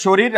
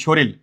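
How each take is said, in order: First: শরীর with its final r kept; standard pronunciation. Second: শরীর turned into "shoril"; variant pronunciation. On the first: Teacher recapping for students, শরীর with final r. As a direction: pronounce শরীর ending in r. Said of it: "কেউ বলে". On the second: Teacher quizzing students on the variant, শরীর as "shoril". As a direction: end শরীর on l instead of r. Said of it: "আবার কেউ বললে কি". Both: Shown as a demonstration.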